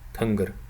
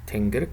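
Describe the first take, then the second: First: The first vowel is a central u-like sound. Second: The first vowel is a front i-like sound. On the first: This is the Inner Mongolian and Buryat pronunciation. "In Inner Mongolia and in Buryatia, it's pronounced as tungr" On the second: This is the Khalkha Mongolian pronunciation. "Khalq Mongolian sounds like tingr"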